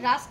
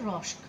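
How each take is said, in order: First: The vowel is an open 'ah' sound. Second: The vowel is a rounded 'aw' sound. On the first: This is the proper pronunciation. The speaker calls it right. "অ্যাকচুয়াল উচ্চারণটা" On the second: This is how the other person says it. The speaker calls it wrong. "হচ্ছে রস্ক"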